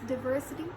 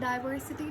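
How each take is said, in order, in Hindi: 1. पहला syllable 'dih' जैसा सुनाई देता है। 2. पहला सिलेबल 'die' जैसा सुनाई देता है। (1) "डिवर्सिटी साउंड्स मोर appropriate" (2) "इसको पढ़ते हैं डाइवर्सिटी"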